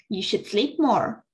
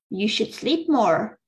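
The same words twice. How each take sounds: The two takes are said the same way.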